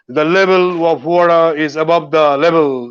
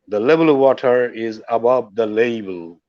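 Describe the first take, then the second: First: The last word is said as level. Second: The last word is said as label. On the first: The speaker calls it wrong. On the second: The speaker calls it right.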